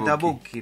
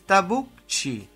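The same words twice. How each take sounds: First: The name is said with Italian pronunciation. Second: The name is said with Argentine Spanish pronunciation. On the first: "en Italia sería Tabucchi" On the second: "Para la Argentina es Tabucchi"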